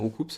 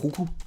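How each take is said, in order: First: The name ends with a final S sound. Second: The name ends without a final S sound. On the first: This is how the speaker said it for years. "depuis des années, du coup, je dis Roucoups" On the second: This is the official pronunciation. "On prononce pas le S à la fin"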